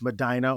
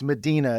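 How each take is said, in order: First: It is said the local Ohio way. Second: It is said the usual, widespread way. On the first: This is how locals pronounce the town's name. "but it's Medina, Ohio" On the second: This is how the name is normally pronounced elsewhere. "it's Medina is the pronunciation, right?"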